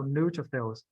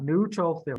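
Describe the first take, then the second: First: "neutrophils" stressed on NEU, then falling away; going downhill. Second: "neutrophil" with a heavy TRO; stress on second syllable. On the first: Teacher shows the right way, "neutrophils" going downhill from NEU. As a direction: let "neutrophils" drop after the first syllable. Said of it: "So it go downhill". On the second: Teacher shows student's mistake, TRO stressed in "neutrophil". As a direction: push the middle syllable of "neutrophil". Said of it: "second emphasis on the second word". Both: Shown as a demonstration.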